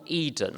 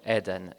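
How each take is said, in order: First: It is pronounced with English vowels. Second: It is pronounced with Italian vowels.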